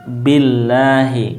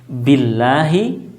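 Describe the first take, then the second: The two takes are said the same way.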